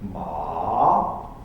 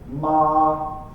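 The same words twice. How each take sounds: First: The pitch drops and then rises. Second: The pitch stays high and level. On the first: "It's a drop and a rise" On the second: "It's a strong high tone"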